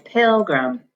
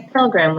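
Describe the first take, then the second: First: "pilgrim" said PIL-grum; accent "pil" and reduce the end of "pilgrim"; natural "pilgrim" with a weak second vowel; stress on first syllable. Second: "pilgrim" with a full "grim" at the end; mistaken reading. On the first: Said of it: "that first syllable has the accent". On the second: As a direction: misread "pilgrim" as pil-grim, both vowels clear. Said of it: "we don't say pilgrim". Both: Shown as a demonstration.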